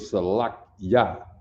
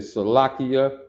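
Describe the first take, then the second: First: The ending glides quickly as one 'kya' syllable. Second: The ending has a separate 'ee' before 'ah'. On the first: The speaker calls it right. "which is really Salakya" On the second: The speaker calls it wrong. "You will hear a little E in there. You hear somebody say Salakia"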